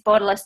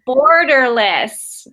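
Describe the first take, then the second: First: It is said with an Australian accent. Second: It is said with an American accent. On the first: "It's my Australian accent" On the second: "That's my American accent for you"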